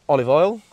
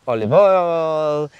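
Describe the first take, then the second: First: It is said in the speaker's usual accent. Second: It is said in a put-on Italian accent.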